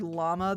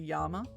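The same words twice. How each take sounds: First: It starts with an L sound. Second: It starts with a Y sound.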